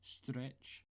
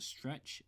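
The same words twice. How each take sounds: First: The word begins with an sh sound. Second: The word begins with a plain s sound.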